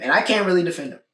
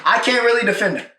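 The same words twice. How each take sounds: First: Said in the usual way. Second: Really pushed up high with a lift of the whole line; emphatic repeat. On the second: Shown as a demonstration. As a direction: lean on really, higher and stronger, to drive it home.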